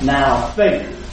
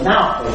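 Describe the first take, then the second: First: The word faith carries the stress. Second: The word now carries the stress. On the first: Now simply introduces the statement about faith. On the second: It is faith for the present time.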